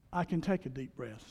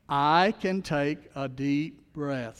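First: Said in the usual way. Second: Very slow, each word drawn out; slowly, for the congregation to repeat; slow affirmation. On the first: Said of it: "Say that phrase with me". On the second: Shown as a demonstration. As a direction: lead the room through it slowly. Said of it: "Say that phrase with me. Join me".

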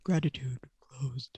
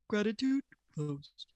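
First: Low, slow whispered take; deep whisper. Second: Slow announcer-style sound bite; tinny sound button clip. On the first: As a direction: breathe it out low and quiet. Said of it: "Can you do it quieter?". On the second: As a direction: say it like a recorded button. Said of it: "just do that again and I'll cut it out". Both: Shown as a demonstration.

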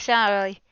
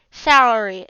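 First: Salary slurred as sal-uh-lee, the r turned to an l; mispronounced word. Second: Salary retried as sal-uh-ree with an r, falling; retry Salary carefully with the r; corrected word. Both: Shown as a demonstration. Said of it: "Sorry, I can't pronounce that".

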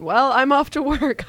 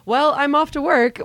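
First: High, louder breezy exit; sing-song casual goodbye, pitched high; Chelsea's breezy exit line. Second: High, bright, louder breezy exit; sing-song casual goodbye, pitched high; Chelsea's breezy exit line. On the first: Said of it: "her just going". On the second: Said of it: "and then Chelsea just goes". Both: Retold or imitated. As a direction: toss it off cheerily, pitched up.

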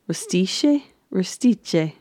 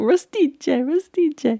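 First: Said in the usual way. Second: High, playful imitation of an Italian accent; mock Italian accent. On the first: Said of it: "they're called". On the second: Host imitates Matt teasing with Italian words, mock Italian accent. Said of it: "Matt is doing the Italian accent".

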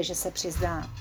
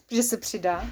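First: Reading "přizná" by mistake; misread. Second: "přidá" said right with a laugh; laughing correction. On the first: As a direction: say "přizná" as a slip for "přidá". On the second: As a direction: fix the slip, chuckling. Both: Shown as a demonstration.

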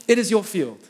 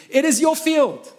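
First: Said in the usual way. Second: "It is your field" much higher and louder, slow, hitting "your"; emphatic declaration. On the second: Acted. Preacher hammering the point to the congregation, loud and emphatic. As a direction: ring out "your field" as the climax.

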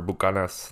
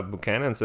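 First: Bucanas said boo-KAH-nahs; Spanish-style pronunciation. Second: Buchanan's said as an English surname, byoo-KAN-unz; English name pronunciation. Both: Shown as a demonstration. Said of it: "That's how they say it".

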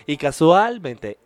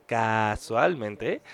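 First: "casualmente" stretched out, louder and slow; slow emphatic casualmente. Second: "casualmente" repeated lower, softer and very slow; drawn-out softer repeat. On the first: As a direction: lean hard on "casualmente", drawing it out. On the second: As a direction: let "casualmente" sink, low and slow. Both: Shown as a demonstration.

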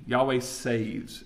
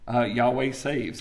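First: Slow emphasis. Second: Said in the usual way. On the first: Shown as a demonstration. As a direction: slowly stress Yahweh saves. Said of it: "the word means". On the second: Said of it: "It's about that".

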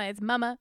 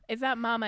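First: Mama with a broad country vowel; mama in a Virginia country accent; right Mama. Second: Mama said the plain way; mama with the ordinary vowel; wrong Mama. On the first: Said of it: "It's not mama, it's mama". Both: Shown as a demonstration.

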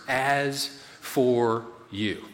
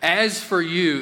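First: "as for you" said very slowly, weighted; slow emphasis. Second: "As for you" like a stern dad, slow. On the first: Preacher weighting Paul's three words. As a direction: draw out "as for you". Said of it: "Paul use those three words". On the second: Preacher doing a stern dad addressing a child. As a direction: give "As for you" a dad warning. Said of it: "that has a real dad vibe to it". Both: Shown as a demonstration.

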